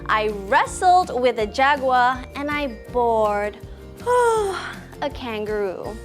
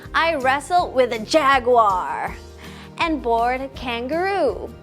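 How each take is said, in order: First: Wrestled and bored carry the stress. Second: Jaguar and kangaroo carry the stress. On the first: The two very different actions are highlighted. "we should emphasize the words wrestled and bored" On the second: The different animals are highlighted. "emphasize the word jaguar and kangaroo"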